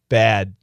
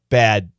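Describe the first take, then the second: No difference in how they are said.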